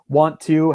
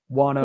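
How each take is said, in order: First: Both words are said fully and separately. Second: The words are merged into one reduced word.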